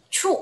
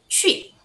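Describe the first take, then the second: First: The vowel is a plain oo sound. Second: The vowel is an ee sound with rounded lips. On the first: The speaker calls it wrong. "cara baca Q itu bukan cu ya" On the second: The speaker calls it right. "tapi baca aja ci"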